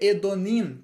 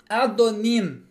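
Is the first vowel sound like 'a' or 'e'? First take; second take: e; a. First: The first vowel sounds like 'e'. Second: The first vowel sounds like 'a'. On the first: The speaker calls it wrong. "Não vai ser Edonim, que seria o mais lógico" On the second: The speaker calls it right. "vai ser Adonim"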